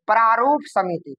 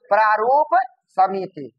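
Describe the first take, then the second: First: Said in the usual way. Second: Slow, two separate words; dictating. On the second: Shown as a demonstration. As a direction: hold प्रारूप, pause, then समिति. Teacher repeats name for class.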